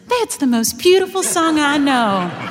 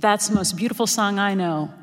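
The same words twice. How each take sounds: First: The voice is lighter and more youthful. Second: The voice is deep and knowing. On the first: The speaker is young and inexperienced. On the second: The speaker has lived through hurt and experience. "in a much deeper, knowing voice"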